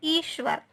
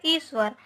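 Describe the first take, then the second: First: ईश्वर said as ishvar with a clear half sh; ईश्वर with a crisp sh sound; correct pronunciation. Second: ईश्वर said as isvar with a plain s sound; ईश्वर with s instead of sh; wrong common pronunciation. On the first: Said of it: "लेकिन सही रूप क्या है?". (ईश्वर को आधे श के साथ साफ़ बोलें) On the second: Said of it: "लेकिन हम क्या बोलते हैं उसे?". (ईश्वर को "इस्वर" की तरह, स से बोलें) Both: Shown as a demonstration.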